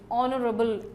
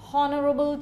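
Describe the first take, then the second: First: The word begins with a vowel, no H sound. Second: The word begins with an audible H sound. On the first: The speaker calls it right. "You should not pronounce the H. It is honorable" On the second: The speaker calls it wrong. "They may say honorable chief guest, which is wrong"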